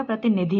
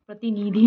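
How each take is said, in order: First: "प्रतिनिधि" with short, quick "ni"; correct short i. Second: "प्रतिनिधि" with stretched loud "nee-dhee"; wrong long i. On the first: Teacher gives the correction, short-i "प्रतिनिधि". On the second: Teacher rejects the misspelling, long-i "प्रतिनिधि". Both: Shown as a demonstration. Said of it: "छोटी की मात्रा आएगी".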